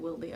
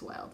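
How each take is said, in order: First: The name ends with an extra 'ee' sound. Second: The name ends on the 'd' sound. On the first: "I'm gonna bet she doesn't pronounce it Wildy" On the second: "I bet it's Wild"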